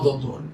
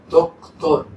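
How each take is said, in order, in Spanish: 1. El sonido de la C antes de la T se omite. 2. El sonido de la C antes de la T se pronuncia. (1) "no doctor" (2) "Esa C es para pronunciarla"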